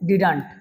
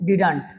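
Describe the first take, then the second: First: The words are joined into one contracted word. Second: The same.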